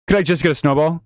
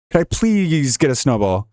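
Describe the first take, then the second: First: Said in the usual way. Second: A whiny plea, please stretched out; pleading. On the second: Shown as a demonstration. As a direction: beg for it, leaning on please. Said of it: "There's nothing more I want in this life".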